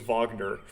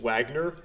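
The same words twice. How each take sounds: First: The name is pronounced the German way. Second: The name is pronounced the English way. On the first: The speaker calls it right. "but it's German, so it's Wagner" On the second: The speaker calls it wrong. "I actually pronounced it Wagner"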